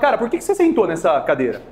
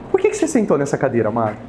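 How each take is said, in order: First: It is asked in a blunt, unaffectionate tone. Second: It is asked in a loving, affectionate tone.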